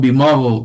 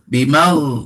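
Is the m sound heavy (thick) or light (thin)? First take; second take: thick; thin. First: The m sound is heavy and thick. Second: The m sound is light and thin. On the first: The speaker calls it wrong. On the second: The speaker calls it right.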